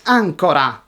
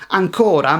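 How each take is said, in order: First: "ancora" stressed AN-co-ra; "ancora" with AN stressed and the last two syllables light; stress on first syllable. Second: "ancora" stressed an-CO-ra; "ancora" with a long stressed CO in the middle; stress on second syllable. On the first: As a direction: punch the opening syllable of "ancora": ANcora. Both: Shown as a demonstration. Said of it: "Same spelling, different stress".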